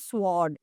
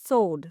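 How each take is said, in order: First: The W sound is pronounced after the S. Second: The W sound is silent after the S. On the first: The speaker calls it wrong. "You will not call it a sword" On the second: The speaker calls it right. "It is sword"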